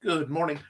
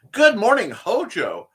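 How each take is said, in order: First: Said in the usual way. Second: Loud, high, cheerful hello; excited greeting. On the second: Real, not acted. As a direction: boom out a happy good morning. Louder enthusiastic repeat greeting.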